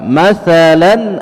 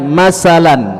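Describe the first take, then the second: First: The middle consonant is a clear 'th' sound. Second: The middle consonant is an 's' sound. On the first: The speaker calls it right. "jelaskan huruf tha" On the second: The speaker calls it wrong. "jangan dibaca masalan. Ini tidak boleh"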